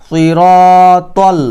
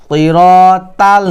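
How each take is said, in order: No difference in how they are said.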